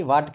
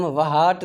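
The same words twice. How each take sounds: First: वाट with a silent h; वाट, plain w and a; correct pronunciation. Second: वहाट with the h sounded; वहाट, h pronounced; wrong pronunciation. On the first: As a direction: say वाट, no h sound. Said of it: "वाट कहते हैं". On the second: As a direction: say वहाट with a breathy h. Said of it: "इसको हम वहाट नहीं कहते". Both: Shown as a demonstration.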